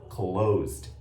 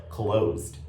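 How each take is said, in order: The two takes are said the same way.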